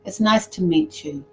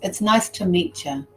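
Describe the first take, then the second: First: The t and y merge into a ch sound. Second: The same.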